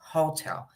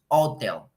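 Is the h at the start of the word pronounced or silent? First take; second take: pronounced; silent. First: The word begins with an audible h sound. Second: The word begins without an h sound. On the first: The speaker calls it right. "decimos hotel" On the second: The speaker calls it wrong. "No decimos hotel"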